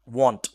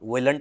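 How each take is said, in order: First: It is said as 'won't', with a changed vowel. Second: It is said as 'willn't', keeping the 'will' sound. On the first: The speaker calls it right. "विल नॉट को मिलाकर बोला था वांट" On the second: The speaker calls it wrong. "विलंट नहीं बोलते"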